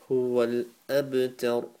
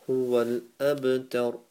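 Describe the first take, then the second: Both takes have the same delivery.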